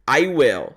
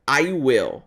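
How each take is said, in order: The two takes are said the same way.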